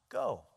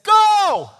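First: It is said as a relaxed suggestion. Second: It is said as an urgent command.

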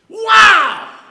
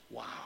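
First: It is said with great excitement. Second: It is said flatly, without excitement.

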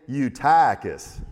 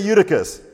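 First: It is said in a Texan accent. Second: It is said in a standard accent.

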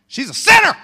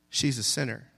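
First: It is said loudly, as an exclamation. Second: It is said calmly, as plain reading.

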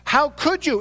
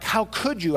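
First: It sounds incredulous, as if it's impossible. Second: It sounds reproachful, scolding the listener.

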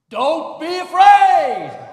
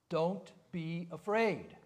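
First: It is said loudly and frighteningly. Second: It is said softly and mildly.

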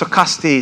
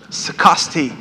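First: The name is said in the natural, local way. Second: The name is said in a stilted, GPS-like way. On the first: The speaker calls it right. "But it's Saukesti" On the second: The speaker calls it wrong. "I just love how the GPS pronounces it. ... It says Saukesti"

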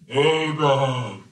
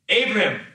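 First: It is said in a booming movie-God voice. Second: It is said in a normal reading voice.

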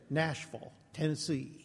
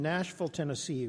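First: It is said in a Southern drawl. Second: It is said in the speaker's plain accent.

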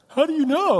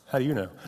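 First: It is said in a panicked, freaking-out way. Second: It is said in a calm, flat way.

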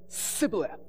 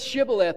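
First: The word begins with an 's' sound. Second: The word begins with an 'sh' sound. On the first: The speaker calls it wrong. "Because he can't pronounce his H's" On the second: The speaker calls it right. "Say Shibboleth"

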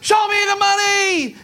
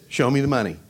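First: It is shouted with full conviction. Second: It is said flatly, without conviction.

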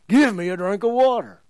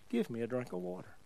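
First: The phrase is shouted loudly and harshly. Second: The phrase is said quietly and calmly. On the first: A demanding, aggressive request. The speaker calls it wrong. "Jesus didn't yell it at her. He didn't" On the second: A simple, gentle request. The speaker calls it right. "He just said"

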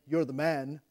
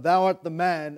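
First: It is said in a praising, positive tone. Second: It is said in an accusing tone.

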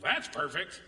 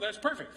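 First: The tone is sarcastic and dry. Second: The tone is sincere and pleased. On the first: The speaker is actually annoyed with the situation. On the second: The speaker is genuinely happy with the arrangement.

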